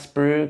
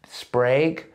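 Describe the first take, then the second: First: The vowel sounds like the one in bug. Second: The vowel sounds like the one in day. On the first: The speaker calls it wrong. "it's not Sprug" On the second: The speaker calls it right. "it's Sprague"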